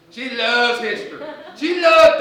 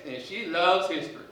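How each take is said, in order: First: Loves pushed much higher and louder; stress on loves. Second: Said in the usual way. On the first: Acted. Principal insists the teacher loves history, hammering loves louder. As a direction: keep building on loves until it is nearly a yell.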